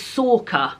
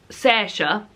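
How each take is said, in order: First: The middle consonant sounds like a hard k. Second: The middle consonant sounds like an s or sh. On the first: "somebody else said it was Sorka" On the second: "I thought I said Saoirse. Somebody told me that was wrong"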